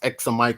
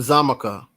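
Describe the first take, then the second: First: The word begins with an 'eks' sound. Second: The word begins with a 'z' sound. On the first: "it could still also be pronounced Examica" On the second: "the X also pronounces as a Z"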